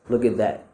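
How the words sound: The final word 'that' is weak and unstressed. "it's going to be unstressed"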